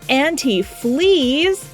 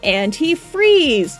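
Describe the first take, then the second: First: The last syllable begins with an L sound. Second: The last syllable begins with an R sound. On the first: The speaker calls it wrong. "I mispronounced antifreeze" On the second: The speaker calls it right.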